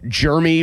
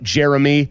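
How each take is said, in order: First: The name is said with two syllables. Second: The name is said with three syllables. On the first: The speaker calls it right. "There's not an extra E in there" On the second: The speaker calls it wrong. "not Jeremy"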